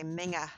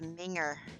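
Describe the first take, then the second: First: The word ends with an open 'ah' sound. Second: The word ends with an 'er' sound. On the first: The speaker calls it right. "You say minga" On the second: The speaker calls it wrong. "Only you don't say it like that"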